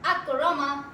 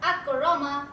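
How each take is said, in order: Both takes have the same delivery.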